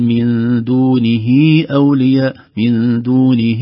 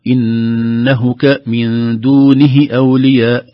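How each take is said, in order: First: دونه with the ha stretched to دونهي; slow دونه, ha drawn out; with silah. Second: دونه with a short, clipped ha; slow دونه, no lengthening; without silah. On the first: Teacher showing the right way, with silah. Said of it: "لا، نقول". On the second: Teacher showing the wrong way, no silah. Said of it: "بدل ما نقول". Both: Shown as a demonstration.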